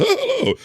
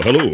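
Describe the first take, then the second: First: A sudden squeaky high break on "Hello"; voice cracking high. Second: Said in the usual way. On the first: Retold or imitated. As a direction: let "Hello" crack up into a much higher squeak. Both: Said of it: "My, my voice went".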